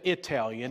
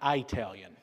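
First: The first vowel sounds like 'ih'. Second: The first vowel sounds like 'eye'. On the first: The speaker calls it right. "I said Italian" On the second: The speaker calls it wrong. "and not Italian"

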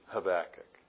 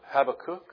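First: The last part does not sound like 'kook'. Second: The last part sounds like 'kook'. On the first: The speaker calls it right. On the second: The speaker calls it wrong.

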